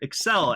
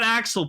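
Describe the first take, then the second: First: The name begins like the word 'accelerate'. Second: The name begins with the vowel of 'axe'. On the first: The speaker calls it right. "It's Kamen Rider Excel" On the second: The speaker calls it wrong. "So it's not Axel"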